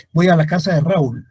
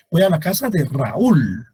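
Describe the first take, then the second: First: "Raúl" as one syllable, stress on A; fuse the vowels in "Raúl"; wrong diphthong. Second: "Raúl" as two syllables, ra-ÚL; correct hiatus. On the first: Teacher giving the wrong example sentence, fused "Raúl". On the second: Teacher correcting the example sentence, two-syllable "Raúl". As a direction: stress a separate Ú in "Raúl". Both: Shown as a demonstration.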